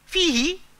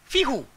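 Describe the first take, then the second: First: The word ends with an 'i' vowel. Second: The word ends with a 'u' vowel. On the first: This is the standard form. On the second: This is how a Yemeni tribe says it.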